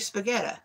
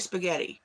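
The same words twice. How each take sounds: First: The word ends with a vowel other than 'ee'. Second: The word ends with an 'ee' vowel sound. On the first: The speaker calls it wrong. "You don't say spaghetti" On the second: The speaker calls it right. "Spaghetti ends with an I, you say spaghetti"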